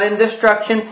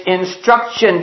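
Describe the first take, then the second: First: "in destruction" with a "di" syllable after "in"; wrong word. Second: "instruction" slowly, no "di" after "in"; corrected word. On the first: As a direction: repeat the misreading "in destruction". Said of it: "that's not in destruction". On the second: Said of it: "It's instruction". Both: Acted.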